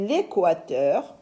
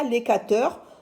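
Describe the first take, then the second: First: The vowel after the k sound is said 'wa'. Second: The vowel after the k sound is a plain 'a'. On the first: The speaker calls it right. "on dit l'équateur. ... le A se lit wa" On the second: The speaker calls it wrong. "On ne dit pas"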